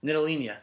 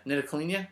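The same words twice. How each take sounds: First: Nidelina said as a statement with a falling end; stated guess. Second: Nidelina asked with a rising end; questioning guess. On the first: Podcaster tries the player's name for his co-host, falling tune. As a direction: offer Nidelina flatly, tune dropping at the end. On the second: Podcaster checks the name with his co-host, rising question tune. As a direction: try Nidelina again as a doubtful question. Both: Shown as a demonstration. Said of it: "I don't know how to say it".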